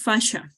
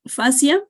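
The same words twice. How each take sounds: First: The word is pronounced with English sounds. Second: The word is pronounced with Spanish sounds. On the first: The speaker calls it right. "In English" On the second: The speaker calls it wrong. "Fascia is in Spanish"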